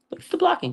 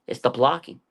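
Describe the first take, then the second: First: "blocking" said much higher, with a falling tune; emphatic repeat. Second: Said in the usual way. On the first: Real, not acted. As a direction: land hard on "blocking" from up high.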